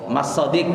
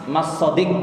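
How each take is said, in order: The two takes are said the same way.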